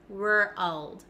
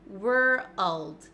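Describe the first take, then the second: The two takes are said the same way.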